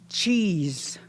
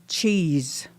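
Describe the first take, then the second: The two takes are said the same way.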